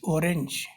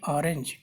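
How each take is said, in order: First: The first vowel is a plain 'o' sound. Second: The first vowel sounds like an 'a'. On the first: This follows the letter's European value. The speaker calls it wrong. "we are not calling this orange" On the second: This is the usual English way. The speaker calls it right. "we are calling it orange"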